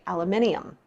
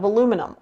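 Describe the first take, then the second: First: It is said the way local people say it. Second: It is said in the speaker's usual American way. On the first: "or as they say" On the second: "is made out of aluminum"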